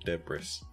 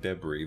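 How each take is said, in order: First: The final S is pronounced. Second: The final S is silent. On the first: The speaker calls it wrong. "It's not debris" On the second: The speaker calls it right. "there is a silent S"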